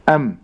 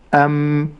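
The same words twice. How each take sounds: First: The m is single with a faint nasal hum. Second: The m is doubled with a long nasal hum. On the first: "لكن في الساكن أم" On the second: "استمع إلى المشدد أم"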